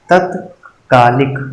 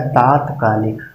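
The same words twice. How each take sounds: First: तत्कालिक drawn out slowly; wrong form. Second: तात्कालिक with long आ first; correct form. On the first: Teacher reading a misspelling slowly to students. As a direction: slowly read तत्कालिक with short त. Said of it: "ये गलत है". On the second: Teacher giving the corrected word to students. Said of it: "हो जाएगा तात्कालिक". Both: Shown as a demonstration.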